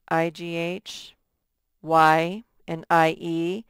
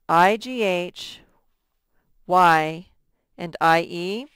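No difference in how they are said.

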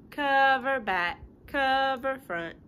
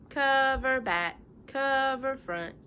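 Both takes have the same delivery.

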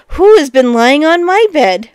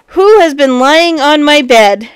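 First: Lightly voiced middle bear, calling out; middling-sized voice. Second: Loud big bear cry; great big voice. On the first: Middle bear seeing rumpled bed, middling-sized voice. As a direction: middle bear's higher, raised cry. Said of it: "cried out in a middling-sized voice". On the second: Big bear looking at his bed, great big voice. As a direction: boom it out as the huge bear. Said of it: "great big voice". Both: A narrator's reading.

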